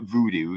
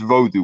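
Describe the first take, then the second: First: The word has an Americanized pronunciation. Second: The word has a traditional, non-Americanized pronunciation. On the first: The speaker calls it wrong. "It's not voodoo. That was that was kind of an Americanization" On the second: The speaker calls it right. "in in the old in the old uh, language"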